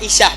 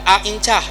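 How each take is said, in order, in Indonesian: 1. Bunyi tengah nama itu adalah 'sh' yang biasa. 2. Bunyi tengah nama itu adalah 'nch' yang sengau. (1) "Aisyah bukan Aincah" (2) "bukan Aincah ... salah"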